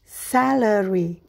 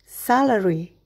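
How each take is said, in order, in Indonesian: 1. Kata ini diucapkan dengan lambat. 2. Kata ini diucapkan dengan cepat. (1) "berlatih dengan perlahan" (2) "berlatih dengan lebih cepat"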